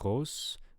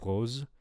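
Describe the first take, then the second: First: The final fricative is voiceless, like s. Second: The final fricative is voiced, like z. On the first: The speaker calls it wrong. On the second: The speaker calls it right.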